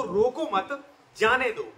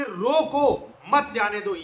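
First: "रोको मत" as one slow phrase, pause, then "जाने दो"; pause after मत. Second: Slow, drawn-out "रोको", pause, then "मत जाने दो" together; pause after रोको. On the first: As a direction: break after "मत" so "जाने दो" stands apart. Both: Shown as a demonstration. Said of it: "उसके दो मतलब निकल आएंगे".

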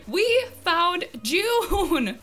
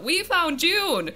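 First: Very slow, high, loud cheer; drawn-out triumphant shout. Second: High, loud, slowed-down cheer; real victory cry; triumphant shout. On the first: Gamer savouring the find with viewers, drawn-out triumphant shout. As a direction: stretch every word into a long victory cry. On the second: Gamer announcing the find to viewers, triumphant shout. Celebrating the successful villager hunt. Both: Real, not acted.

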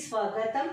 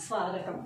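First: స్వాగతం with a short a, as svagatam; quick sva in స్వాగతం, no long aa; short first vowel. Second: స్వాగతం with a long aa, as svaagatam; lengthened svaa in స్వాగతం; long first vowel. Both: Shown as a demonstration. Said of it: "ఎంత తేడా ఉంది".

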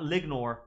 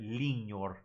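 First: Lignor with a hard G as in goat, LIG-nor; wrong hard G. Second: Lignor with the G as ng in hangnail, LING-nor; ng sound. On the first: Teacher showing the wrong lignor with a hard G. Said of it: "Not lignor". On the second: Teacher giving the correct lignor with an ng sound. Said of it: "but lignor". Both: Shown as a demonstration.

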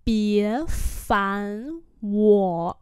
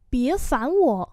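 First: Each syllable drawn out; slow, separated syllables; slow demonstration. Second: Said in the usual way. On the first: Shown as a demonstration. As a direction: model it slowly. Teacher repeats phrase slowly.

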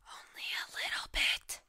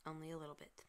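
First: Loud stage whisper of "Only a little bit". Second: Said in the usual way. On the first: Shown as a demonstration. Gamer joking about being obsessed, loud stage whisper. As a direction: whisper it like a sheepish confession. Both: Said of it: "I'm partially obsessed".

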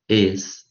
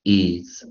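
First: "Is" ending in a voiceless s; IS with S sound. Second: "Is" ending in a voiced z; IS with Z sound. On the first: Teacher showing one of two readings, "Is" with s. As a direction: say "Is" with a crisp hissed s at the end. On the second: Teacher showing the other reading, "Is" with z. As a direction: say "Is" with a buzzing z at the end. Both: Shown as a demonstration. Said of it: "一个念什么".

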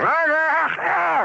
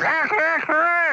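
First: High, loud mock rooster crow; old rooster crowing. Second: High, loud mock rooster crow echoing the first; young rooster crowing. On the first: Joke teller crows as old rooster at dawn. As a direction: crow like a rooster waking the farm. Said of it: "So he goes". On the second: Joke teller crows as young rooster following old one. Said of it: "the young one goes".

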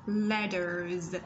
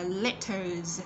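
First: "letters" with the middle t voiced like a d; American d-like T. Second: "letters" with a clear t in the middle; slow British-style "letters", crisp middle t. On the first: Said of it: "chúng ta có thể đọc nó là d". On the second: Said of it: "giọng Anh Anh". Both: Shown as a demonstration.

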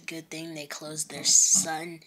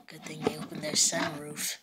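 First: Said in the usual way. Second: Sneaky robber whisper. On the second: Acted. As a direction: hush it like a plotting thief. Robbers plotting in the car.

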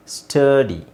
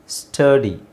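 Both takes have the same delivery.

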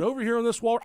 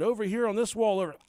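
First: Burp cough. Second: Coughing mid-word. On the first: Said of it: "He burp coughed". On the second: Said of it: "He fucking coughed a hairball". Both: Retold or imitated.

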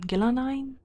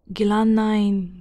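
First: Gilanine quicker and higher, rising as a question; name questioned. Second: Gilanine drawn out slowly and firmly; Gilanine, slow and sure; name stated. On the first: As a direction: try Gilanine doubtfully, pitch going up. Doubting own reading of name. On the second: Trying out an unfamiliar name. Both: Shown as a demonstration.

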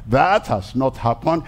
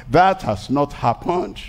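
No difference in how they are said.

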